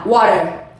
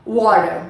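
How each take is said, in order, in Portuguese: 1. É dita com sotaque americano. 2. É dita com sotaque americano.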